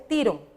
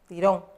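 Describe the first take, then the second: First: The stress is on the first syllable. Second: The stress is on the last syllable. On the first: The speaker calls it wrong. "no está acentuada la O, entonces no dice tirón" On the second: The speaker calls it right. "Le hace falta el acento"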